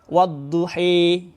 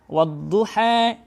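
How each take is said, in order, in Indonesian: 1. Vokal akhir sangat condong ke e. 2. Vokal akhir sedikit condong ke e. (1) "Bisa juga menjadi wadduhi" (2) "itu bisa dibaca menjadi wadduha"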